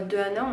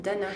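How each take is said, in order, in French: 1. La voyelle de 'de' est entièrement prononcée. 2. La voyelle de 'de' est supprimée et liée. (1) "on dit pas de Anna" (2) "on dit d'Anna"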